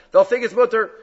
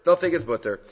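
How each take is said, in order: First: "mutter" said with a loud, higher, careless start; "mutter" blurted loudly, as the wrong reading; mispronounced. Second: Said in the usual way. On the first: Shown as a demonstration.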